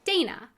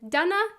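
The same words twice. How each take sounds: First: The first vowel sounds like 'ay', as in day. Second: The first vowel sounds like 'ah', as in Donna. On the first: This is the usual American pronunciation of the name. "rather than the pronunciation" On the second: This is the Czech pronunciation of the name. "my heritage comes from the Czech Republic, and so that's why I was given the name with the pronunciation"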